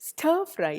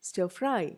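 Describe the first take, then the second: First: The stress is on the first word. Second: The stress is on the second word. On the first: The speaker calls it wrong. "stir fry ഇല്ല" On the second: The speaker calls it right. "Second ഇതിലാണ് stress വരുന്നത്"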